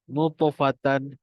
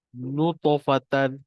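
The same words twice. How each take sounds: Both takes have the same delivery.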